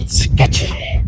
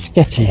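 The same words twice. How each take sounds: First: Whispered echo of the word; playful whisper. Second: Said in the usual way. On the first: Pretend. Explorer sizing up the building before going in, playful whisper. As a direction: whisper it for spooky effect. Echoes own word for effect.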